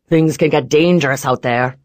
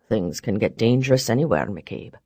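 First: Loud rough veiled threat; menacing boss voice. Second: Deep, quiet, cool retort; low calm man voice. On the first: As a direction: lean on can, warning. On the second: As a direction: throw it back coldly. Barrons counters calmly. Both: Acted.

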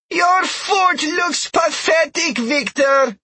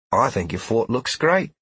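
First: High, loud, slow taunting call; Trell shouting. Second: Gentle, encouraging reply; reassuring. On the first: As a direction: jeer it across a long distance. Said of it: "just loud enough to be heard from forty yards away". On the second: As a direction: comfort him kindly. Sheila reassures after Trell's insult. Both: Acted.

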